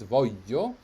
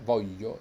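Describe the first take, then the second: First: The middle consonant sound is held long. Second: The middle consonant sound is short. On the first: The speaker calls it right. "it's voglio" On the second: The speaker calls it wrong. "It's not voglio"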